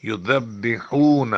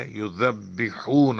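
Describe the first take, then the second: First: یذبحون very slow and louder, the ح pushed from the throat; loud slow drill of یذبحون; stronger drill. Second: یذبحون very slow with a clear ذ and a doubled ب; careful recitation. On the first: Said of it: "exercise فرمائیں". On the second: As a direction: sound out the ذ of یذبحون gently. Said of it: "ذال آ گیا". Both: Shown as a demonstration.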